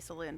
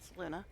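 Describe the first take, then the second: First: The name ends with a plain 'oon' sound. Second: The name ends with an added 'uh' vowel. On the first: This is how the spelling suggests it is said. "I know that looks like it should be Saloon" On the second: This is how the characters in the game say it. "everybody in the game pronounces it Saluna"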